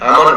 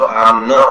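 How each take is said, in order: First: The final vowel is short, not drawn out. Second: The final vowel after n is drawn out. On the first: "अगर ये हम इसको इस तरह से ध्वनि नहीं देंगे तो ये शब्द आमन हो जाएगा।" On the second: "अगर न के आगे हमने ये विलंबित ध्वनि लगाई है"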